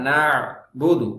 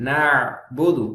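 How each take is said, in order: No difference in how they are said.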